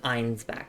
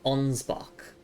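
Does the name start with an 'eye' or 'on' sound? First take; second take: eye; on. First: The name begins with an 'eye' sound. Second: The name begins with an 'on' sound. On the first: The speaker calls it wrong. "Rather than Einsbach" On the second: The speaker calls it right. "It's pronounced as Onsbach"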